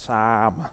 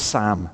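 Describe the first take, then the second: First: The vowel is broad, with the mouth wide open. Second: The vowel is short, like in 'Sam'. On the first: This is how Australians say it. "You have to open your mouth wide and go" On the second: This is how the speaker says it. "Like Sam with a little s"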